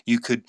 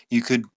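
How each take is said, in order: Both takes have the same delivery.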